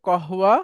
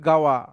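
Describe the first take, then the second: First: The word begins with a k-like sound. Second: The word begins with a g sound. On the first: This is the standard formal form. "এটা হচ্ছে শুদ্ধ ভাষা" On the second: This is how many people say it colloquially. "অনেকে বলবে গাওয়া"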